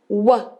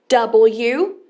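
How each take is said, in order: First: Only the short w sound is made. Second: The letter is said as its full name. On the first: This is how it sounds in words. "o som é W" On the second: This is how you spell it out. "o nome é W"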